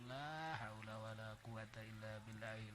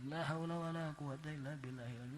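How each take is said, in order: First: The phrase is recited slowly and calmly. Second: The phrase is recited quickly and hurriedly. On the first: The speaker calls it right. "nu dibaca lalaunan" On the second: The speaker calls it wrong. "ulah cepet-cepet wiridan kos gitu mah"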